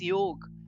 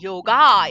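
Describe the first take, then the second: First: The word has an Indian-style pronunciation. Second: The word has an Americanized pronunciation. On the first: This is the original form of the word. The speaker calls it right. "it is yoga" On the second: This is the westernized form of the word. The speaker calls it wrong. "It is not yoga"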